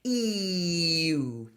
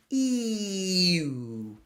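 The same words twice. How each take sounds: First: "E-oo" gliding slowly from spread ee to rounded oo. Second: "E-oo" whispered, ee to oo; whispered glide. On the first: Coach demonstrates the you glide slowly. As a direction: move lips slowly from ee to oo. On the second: Coach whispers the ee-oo glide for students. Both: Shown as a demonstration. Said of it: "very slowly move your lips forward".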